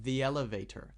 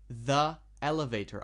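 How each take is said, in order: First: The two words are joined smoothly. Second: The two words are said separately. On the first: The speaker calls it right. "I put them together and it sounds very smooth" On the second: The speaker calls it wrong. "I didn't say the elevator"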